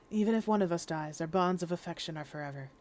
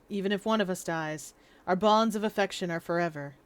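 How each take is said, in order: First: It is said in a put-on voice for Zieg. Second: It is said in the speaker's own voice.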